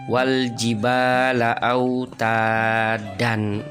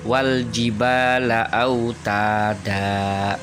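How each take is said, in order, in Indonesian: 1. Kata terakhir berakhir dengan bunyi n. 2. Kata terakhir berakhir dengan vokal panjang. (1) "kalau sesuai lafad" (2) "membaca sesuai tajwidnya"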